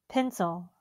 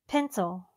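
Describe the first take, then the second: No difference in how they are said.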